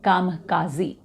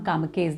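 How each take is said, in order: First: The word ends in a 'kazi' sound. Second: The word ends in a short 'kez' sound. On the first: The speaker calls it right. "इसका उच्चारण है कामकाजी" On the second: The speaker calls it wrong. "इसका नाम कामकेज नहीं है"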